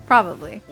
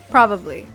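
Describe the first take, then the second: No difference in how they are said.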